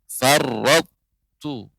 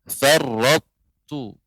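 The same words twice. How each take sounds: The two takes are said the same way.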